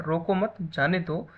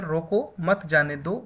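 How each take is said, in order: First: Slow "रोको मत", short break, "जाने दो"; "रोको मत" as one phrase, then release with "जाने दो"; comma after मत. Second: Slow "रोको", pause, then "मत जाने दो"; "रोको" stands alone, "मत जाने दो" follows as one phrase; comma after रोको. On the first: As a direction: pause after "मत", before "जाने दो". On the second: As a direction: break right after "रोको". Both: Shown as a demonstration. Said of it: "एक comma का difference है".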